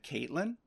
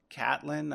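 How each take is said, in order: First: "Caitlyn" said with a long a, as in Kate; mispronounced name. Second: "Catelyn" said with a short a, as in cat; correct name pronunciation. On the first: Podcaster repeating the name error, "Caitlyn" with a Kate-like first syllable. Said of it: "I said Caitlyn". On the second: Podcaster giving the character's proper name, "Catelyn" with a cat-like first syllable. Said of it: "instead of". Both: Shown as a demonstration.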